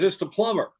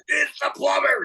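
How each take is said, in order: First: Plumber calling out, pitched up, not yet agitated; mild, higher call through a door; lightly voiced plumber. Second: Hammed-up, very high exasperated cry; very agitated plumber. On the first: Plumber answering the parrot the first time, mild raised-pitch call. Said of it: "He says". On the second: Plumber at his last straw with the parrot, agitated high cry. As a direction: act a plumber at the end of his rope. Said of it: "Guy's getting increasingly agitated".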